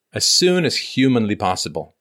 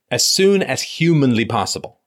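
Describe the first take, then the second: First: Said in the usual way. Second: Slow, stressed as soon as humanly possible; emphatic repeat. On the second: Shown as a demonstration. Host stressing urgency to caller, slow and emphatic. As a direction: lean on every word of as soon as humanly possible.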